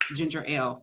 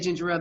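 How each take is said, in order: First: The two words are said clearly apart. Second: The two words run together as one word. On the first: "then I realized it was two words" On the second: "I used to say ginger ale"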